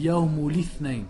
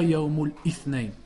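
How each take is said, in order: First: The words run together without a glottal stop. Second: A glottal stop separates the two words. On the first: The speaker calls it right. "On dit ... on ne doit pas entendre de Qata" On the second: The speaker calls it wrong. "On dit pas"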